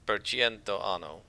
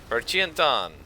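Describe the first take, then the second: First: Every word ends with its full final vowel. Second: Final vowels are chopped off, southern Italian style.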